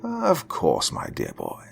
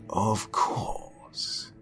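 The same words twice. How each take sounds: First: Warm. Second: "Of course" breathed in a voiceless whisper; the artist answering the boy softly while studying the girl. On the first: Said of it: "he warmly answered". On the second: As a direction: say "Of course" quietly, almost to yourself. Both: A narrator's reading.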